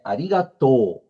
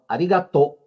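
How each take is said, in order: First: The final O is drawn out long. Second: The final O is short and clipped. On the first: The speaker calls it right. "É como se eu tivesse dois O. Alonga" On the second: The speaker calls it wrong. "seco, como se terminasse no O"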